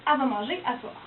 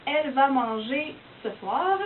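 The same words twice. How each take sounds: First: "elle va manger à soir" with "elle" clipped to "a", Québécois style; casual Québécois accent; Québec French. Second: "elle va manger ce soir" said slowly, every sound clear, as in France; careful standard French. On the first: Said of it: "On va dire au Québec". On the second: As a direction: spell out "ce soir" fully, France-style. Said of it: "Donc, par exemple". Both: Shown as a demonstration.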